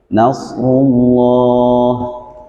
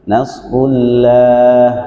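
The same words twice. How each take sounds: First: The vowel is thick and rounded like 'o'. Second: The vowel is thin and open like 'a'. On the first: The speaker calls it right. "dibacanya tafkhim atau tebal. Vokalnya hurufnya o" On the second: The speaker calls it wrong. "tidak a ya"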